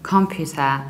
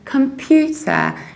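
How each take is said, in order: First: The stress is on the first syllable. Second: The stress is on the second syllable. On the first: The speaker calls it wrong. "stressing the very first syllable" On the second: The speaker calls it right. "You stress pew"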